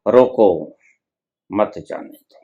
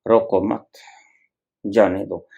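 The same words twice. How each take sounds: First: "रोको", pause, then soft "मत जाने दो" run together; pause after रोको. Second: "रोको मत" as one unit, pause, then "जाने दो"; pause after मत. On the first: Preacher showing how a shifted pause twists words, pause after रोको. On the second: Preacher showing how a shifted pause reverses words, pause after मत. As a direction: hold the break until after मत, low and soft. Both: Shown as a demonstration. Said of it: "शब्दों के ठहराव को बदल दिया था".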